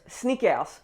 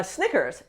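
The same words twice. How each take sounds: First: "Snickers" as French "snee-kairs"; French accent. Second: Said in the usual way. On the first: Shown as a demonstration. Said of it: "say them with the French accent". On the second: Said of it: "say English words in French".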